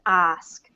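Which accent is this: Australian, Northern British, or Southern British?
Australian. It is said in an Australian accent. "if you're in New Zealand or Australia"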